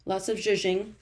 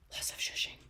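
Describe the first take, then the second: First: Said in the usual way. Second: Very soft whispered aside; hushed, voiceless echo. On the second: Real, not acted. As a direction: whisper it to yourself. Repeats it to self, whispered.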